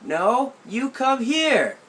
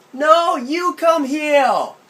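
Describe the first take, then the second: First: Higher, slow and drawn out "No, you come here"; aunt in the garden refusing to come over; aunt calling back. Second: Put-on high, loud childish "Come heel!" with r turned to l; whiny six-year-old calling out; a child in a tree demanding his aunt come; little kid shouting. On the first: Retold or imitated. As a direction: call it back across the yard, firm. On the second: Child insists.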